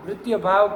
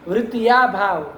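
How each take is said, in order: First: The first word ends in a short 'ya' sound. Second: The first word ends in a long 'yaa' vowel. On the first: The speaker calls it right. "वृत्तीय भाव की जगह वृत्ति" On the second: The speaker calls it wrong. "इस तरह की गलती हो जाती है ना लड़कों की शुरुआत में"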